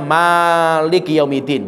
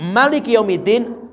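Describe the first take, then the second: First: The first vowel of malik is held long. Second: The first vowel of malik is kept short. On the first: God is the owner of the Day of Judgment. "maka bacanya malik yaumidin" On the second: God is the king of the Day of Judgment. "kalau dipendekkan"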